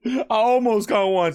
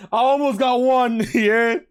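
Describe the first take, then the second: First: Said in the usual way. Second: Laughing. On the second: Real, not acted. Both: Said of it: "community guideline strike".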